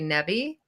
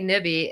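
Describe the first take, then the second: First: It is said the Pittsburgh way. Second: It is said the local northern panhandle way. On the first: This is how people from the nearby city say it. "Pittsburghers say nebby" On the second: This is how the speaker's own region says it. "we say nibby"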